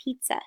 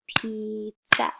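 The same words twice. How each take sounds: First: Said in the usual way. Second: "pizza" slowly split as piz, za; clapped-out syllables. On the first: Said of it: "What is that a picture of?". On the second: Shown as a demonstration. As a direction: break "pizza" into two separate beats. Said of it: "clap how many syllables".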